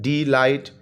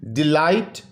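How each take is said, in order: First: delight broken as डी, light; split into syllables. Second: Said in the usual way. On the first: Shown as a demonstration. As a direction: say delight in two beats: डी... light. (Delight को दो हिस्सों में: डी... light) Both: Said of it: "टू syllable word है".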